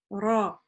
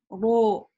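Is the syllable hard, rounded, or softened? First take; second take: hard; rounded. First: The r is firm with a clear a. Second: The vowel turns rounded, sounding like ro. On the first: The speaker calls it right. "Ра здесь твердое ... но не чрезмерствуем" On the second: The speaker calls it wrong. "Не говорим ро ... переходит ... на о"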